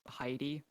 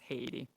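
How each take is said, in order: First: It is said with an American English pronunciation. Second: It is said with a Finnish pronunciation. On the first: "like Heidi in American English" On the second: "but in Finland it's Haiti"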